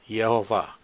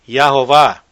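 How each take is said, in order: First: The first syllable has an 'e' vowel, 'yeh'. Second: The first syllable has an 'a' vowel, 'yah'. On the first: The speaker calls it right. "é Yehová" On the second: The speaker calls it wrong. "o pessoal hoje em dia falam que é Yahová"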